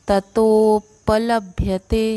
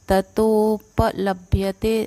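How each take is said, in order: No difference in how they are said.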